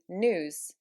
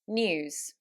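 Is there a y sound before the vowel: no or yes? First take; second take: no; yes. First: It is said without a y sound. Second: It is said with a y sound. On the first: "In American English, that would be news" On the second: "I'm going to say those again for you"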